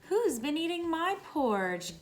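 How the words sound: It is said in a gasping, breathy voice.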